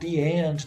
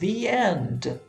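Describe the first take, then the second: First: 'The' begins with a hard d sound. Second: 'The' begins with a soft th sound. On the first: "se você disser o the é, o D, né, com um, um sotaque um pouquinho mais aproximado" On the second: "quando eu tiver o som de vogal, a pronúncia vai ser the"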